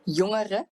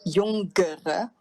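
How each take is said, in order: First: The ng is soft with no added stop. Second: The ng has a hard g or k. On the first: The speaker calls it right. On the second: The speaker calls it wrong.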